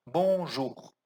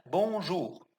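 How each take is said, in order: First: "Bonjour" ending on a gentle, unforced French R; soft French R. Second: "Bonjour" with a soft, light French R at the end. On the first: Teacher repeating "Bonjour" for students with a soft R. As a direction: let the R in "Bonjour" stay soft and light. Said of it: "Não é um R forçado". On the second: Teacher showing students the soft R in "Bonjour". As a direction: keep the R of "Bonjour" gentle, not forced. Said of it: "O R, ele é suave". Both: Shown as a demonstration.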